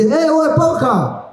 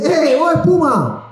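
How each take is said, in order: First: High slow calling out "¡Eh, Bob Esponja!"; excited call across the square. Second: High slow calling out "¡Eh, Bob Espuma!"; excited call across the square. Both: Retold or imitated. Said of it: "No, perdón, me confundí".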